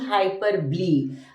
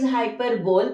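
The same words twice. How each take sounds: First: The word is said with its usual pronunciation. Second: The word is read out as it is spelled. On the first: The speaker calls it right. "but pronunciation is hyperbole" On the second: The speaker calls it wrong. "The spelling is hyperbole"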